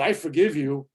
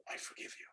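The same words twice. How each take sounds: First: Louder, showy I forgive you. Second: Whispered I forgive you, barely there. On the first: Showing forgiveness said out loud to someone, louder. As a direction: announce I forgive you so they hear it. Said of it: "when you're telling people out loud". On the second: Showing forgiveness kept private to oneself, whispered. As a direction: keep I forgive you inside, just a whisper. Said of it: "you forgive people in here". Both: Shown as a demonstration.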